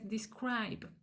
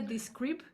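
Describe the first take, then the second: First: The middle vowel sounds like 'eye'. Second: The middle vowel sounds like a plain 'ee'. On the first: The speaker calls it right. "es describe" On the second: The speaker calls it wrong. "en vez de describe"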